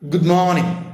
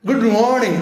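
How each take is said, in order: First: It is said plainly in a normal relaxed way. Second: It is said in an exaggerated put-on foreign accent. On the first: The speaker calls it right. "Normally പറഞ്ഞാൽ മതി" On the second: The speaker calls it wrong. "ഇങ്ങനെ ഇട്ടുകൊണ്ട് പറ ഗുഡ് മോർണിംഗ് അങ്ങനെ പറയൊന്നും വേണ്ട"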